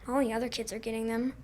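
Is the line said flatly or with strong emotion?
flatly. It is said fairly flatly, with little emotion.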